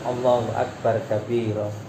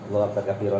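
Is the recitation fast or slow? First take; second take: slow; fast. First: It is recited slowly and calmly. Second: It is recited quickly. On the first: The prayer is done with calm devotion. The speaker calls it right. "Pelan aja Bu. Ada kalem" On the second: The words cannot reach the heart. The speaker calls it wrong. "bacaan cepat itu"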